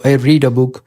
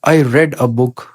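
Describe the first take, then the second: First: 'Read' is pronounced as the present-tense form. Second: 'Read' is pronounced as the past-tense form. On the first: The reading happens in the present. "अगर आप इसको present indefinite लेते हो इस तरह pronounce करते हो" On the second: The reading happened in the past. "अगर आप इसको पास्ट इंडेफिनिट में लेते हो"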